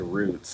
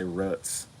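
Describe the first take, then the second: First: The vowel is long, as in boot. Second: The vowel is short, as in foot. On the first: This is the form used for the miniseries title. "when I talk about like the the mini series about slavery, I say roots" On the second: This is the form used in everyday speech. "I don't say roots"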